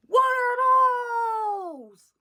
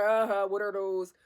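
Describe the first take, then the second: First: Loud, high drawn-out shout; mock heckler yell. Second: Said in the usual way. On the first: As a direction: holler it out like a heckler, stretching the words. Retold heckler yelling at comedian.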